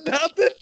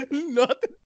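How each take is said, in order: First: Squeaky high "Nothing"; high silly nothing. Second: Laughing nothing. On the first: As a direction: pitch way up and play dumb. Repeating skit line high. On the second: Repeat through laughter. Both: Pretend.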